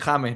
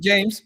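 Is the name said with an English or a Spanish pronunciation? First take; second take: Spanish; English. First: It is pronounced the Spanish way. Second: It is pronounced the English way. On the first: This is how people in Colombia say the name. "en Colombia, te aseguro, Pia, que le dicen James" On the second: This is how friends say the name. "entre nosotros es James"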